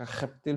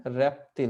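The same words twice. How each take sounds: First: खप्तिल with a throaty initial kh for the R; खप्तिल, opening with kh rather than r; R pronounced as kh. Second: रैप्टिल with an initial r sound; रैप्टिल, opening with r rather than a throaty kh; R pronounced as r. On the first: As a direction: say खप्तिल starting from the back of the throat. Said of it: "खप्तिल भी सुन सकते हैं कई बार". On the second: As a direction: say रैप्टिल starting on a plain r. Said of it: "खप्तिल भी सुन सकते हैं". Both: Shown as a demonstration.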